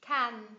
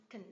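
First: "Can" in full, stressed and loud; strong form. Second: "can" weak and short, vowel swallowed to a schwa; reduced form. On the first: Teacher contrasting forms for learners, strong "Can". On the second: Teacher showing a reduced function word, weak "can". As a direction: say "can" as a quick unstressed "kn". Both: Shown as a demonstration. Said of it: "phần reduced trong một function word".

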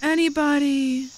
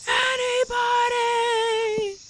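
First: Said in the usual way. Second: High, long drawn-out call into the distance; lonely mock call, very slow. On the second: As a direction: stretch it out like calling across a valley. Calling out alone in game.

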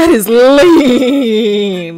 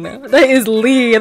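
First: Very slow emphatic drawl; slow drawn out. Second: Said in the usual way. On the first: Real, not acted. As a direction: stretch it out slowly. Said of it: "slowed emphatic repeat". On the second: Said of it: "second take, less slow".

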